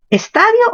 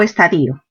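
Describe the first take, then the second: First: Estadio said as es-TA-dio; stress on TA. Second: Estadio said as es-ta-DI-o; stress on I. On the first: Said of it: "Mayor fuerza en ta". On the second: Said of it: "con tilde en la i". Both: Shown as a demonstration.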